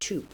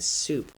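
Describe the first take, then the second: First: The word starts with a stopped t sound. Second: The word starts with a hissing s sound. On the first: "But you might say toop" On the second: "soup has a fricative at the beginning"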